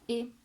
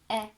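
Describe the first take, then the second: First: The vowel is a closed e sound. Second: The vowel is an open e sound. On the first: This is how it is said with the local accent. "moi je dis et" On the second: This is the strict standard pronunciation. "Normalement, c'est est"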